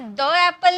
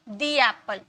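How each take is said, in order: First: 'The' is said with a short 'thuh' vowel. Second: 'The' is said with a long 'thee' vowel. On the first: The speaker calls it wrong. "इसे द एप्पल नहीं बोलेंगे" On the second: The speaker calls it right. "दी एप्पल बोलेंगे"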